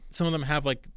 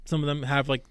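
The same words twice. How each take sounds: The two takes are said the same way.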